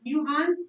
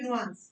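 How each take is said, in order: First: "नुआंस" as NYOO-ahns, with a y glide; "नुआंस" opening nyoo, then ahns; first variant. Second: "नुआंस" as NOO-ahns, without a y glide; second variant. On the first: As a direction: put a "you" sound into "नुआंस". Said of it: "नुआंस या फिर नुआंस". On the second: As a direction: open "नुआंस" on a plain noo. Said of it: "या फिर नुआंस". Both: Shown as a demonstration.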